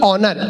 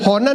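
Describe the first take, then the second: First: The word begins directly with a vowel. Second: The word begins with an 'h' sound. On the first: The speaker calls it right. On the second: The speaker calls it wrong. "होनर नहीं"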